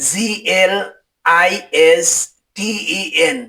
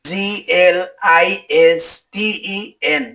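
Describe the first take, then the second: No difference in how they are said.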